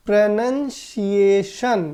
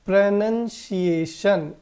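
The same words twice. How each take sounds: First: प्रोनंसिएशन slowly, "nun" not "noun" in the middle; correct pronunciation. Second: प्रोनंसिएशन said slowly, "pro-nun-see-ay-shun" with nun not noun; correct pronunciation. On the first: Teacher repeating the model word slowly for students. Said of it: "इसका उच्चारण क्या है?". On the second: Teacher to students, slow careful model pronunciation. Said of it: "इसका उच्चारण क्या है दोस्तों?". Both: Shown as a demonstration.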